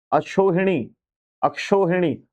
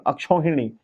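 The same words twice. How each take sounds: First: अक्षोहिणी with a plain o, "aksho-hini"; wrong pronunciation. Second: अक्षोहिणी with au, "akshau-hini"; correct pronunciation. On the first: Teacher reading the error to students, अक्षोहिणी mispronounced with o. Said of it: "अक्षो नहीं". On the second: Teacher correcting for students, अक्षोहिणी pronounced with au. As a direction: open अक्षोहिणी's middle vowel to "shau". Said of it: "दो मात्राएं लगेंगी". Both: Shown as a demonstration.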